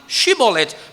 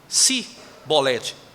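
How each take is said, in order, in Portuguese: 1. A palavra começa com som de sh. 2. A palavra começa com som de s simples. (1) "lá no norte eles falavam Shibolete" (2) "não conseguiam falar o sh, só o s"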